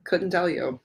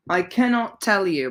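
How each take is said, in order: First: Said in the usual way. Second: Cannot punched higher and louder; stress on cannot. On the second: Shown as a demonstration. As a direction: lean hard on "cannot".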